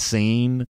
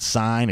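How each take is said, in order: First: The name rhymes with the word seen. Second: The name rhymes with the word sign. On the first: The speaker calls it right. "it's Seen" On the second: The speaker calls it wrong. "it's not Sign"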